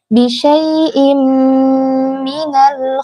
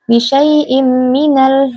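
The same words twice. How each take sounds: First: The m is held with a nasal hum. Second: The m is short with no nasal hum. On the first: The speaker calls it right. "tapi diberikan dengung" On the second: The speaker calls it wrong. "jangan seperti itu"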